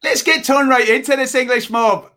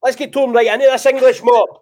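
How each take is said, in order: First: Failed Scottish accent. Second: Much higher and louder, rousing; rally the troops into the match; roaring Scottish battle cry. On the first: English guest mimicking host's sign-off, wobbly Scottish-turned-Irish accent. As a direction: try a Scottish brogue and slip into Irish. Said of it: "That's Irish". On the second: Scottish host demonstrating the sign-off, roaring rallying call. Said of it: "Try again". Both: Shown as a demonstration.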